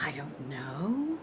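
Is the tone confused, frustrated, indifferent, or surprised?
confused. It sounds confused and uncertain. The speaker is unsure whether they know.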